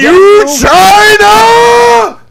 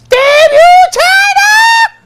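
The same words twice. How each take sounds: First: It is said in his normal voice. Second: It is said in a little kid's voice.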